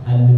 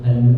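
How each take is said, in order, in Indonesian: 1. Bunyi l memantul tiba-tiba. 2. Bunyi l memantul tiba-tiba.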